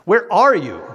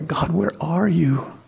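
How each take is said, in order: First: It is said angrily, like a taunt. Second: It is said softly, like a plea.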